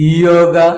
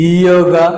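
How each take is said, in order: Both takes have the same delivery.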